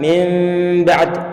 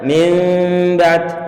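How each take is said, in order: Both takes have the same delivery.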